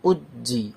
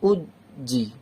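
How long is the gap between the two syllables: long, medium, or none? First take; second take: medium; long. First: There is a brief, moderate pause between syllables. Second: There is a long pause between the syllables. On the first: The speaker calls it right. "এই পজটা রাখবেন" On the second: The speaker calls it wrong. "উদ জি মানে বেশি এভাবে পড়বেন না, উদ জি বেশি থামবেন না"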